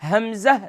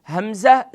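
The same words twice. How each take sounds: Both takes have the same delivery.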